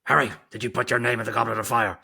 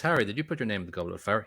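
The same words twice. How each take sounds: First: Loud, fast, aggressive demand; Michael Gambon. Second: Calm, even question, briskly read. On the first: Mimicking the movie headmaster confronting Harry, loud and frantic. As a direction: fire it off like an interrogation, hammed up. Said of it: "That's gangster Gambon coming out". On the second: Quoting the book's headmaster asking Harry, calm. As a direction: ask it matter-of-factly, without alarm. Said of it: "he asked calmly". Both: Retold or imitated.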